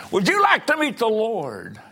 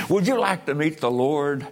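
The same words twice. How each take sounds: First: High, loud preacher's cry; impassioned preaching. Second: Pointed question with a lifted pitch; raised preaching. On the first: Preacher challenges the congregation about meeting the Lord, crying out loud. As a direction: throw the question out at full force. Same question repeated at full force. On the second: Preacher asks the congregation about meeting the Lord, firm but restrained. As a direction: press the question on them, still restrained. Question repeated later with more force. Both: Real, not acted.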